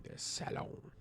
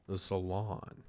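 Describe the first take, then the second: First: "salon" softly, first vowel as in "sad"; soft French-style salon. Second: Said in the usual way. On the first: Shown as a demonstration. Trying pronunciations of salon.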